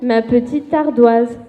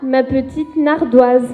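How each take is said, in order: First: No n sound comes before 'ardoise'. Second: An n sound is added before 'ardoise'. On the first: The speaker calls it right. "on dit" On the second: The speaker calls it wrong. "on ne dit pas"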